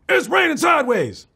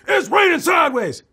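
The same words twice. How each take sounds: First: It is said with less anger. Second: It is said angrily.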